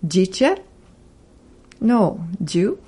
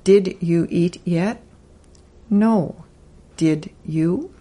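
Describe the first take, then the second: First: "Did you" slurred into "jiju"; two friends trading very clipped questions; heavily shortened speech. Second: Full "Did you eat yet" with each word clear; careful slow version of the chat; spoken slowly. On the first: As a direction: mumble it like quick everyday chat. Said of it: "Here's another example of shortened spoken English". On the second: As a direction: say it slowly and fully. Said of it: "spoken slowly". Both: Shown as a demonstration.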